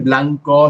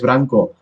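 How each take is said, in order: First: The second consonant is an l. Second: The second consonant is an r. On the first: This is the standard form, not the local one. "no se dice" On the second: This is the local dialect form. "el cambio de la L ... a una R"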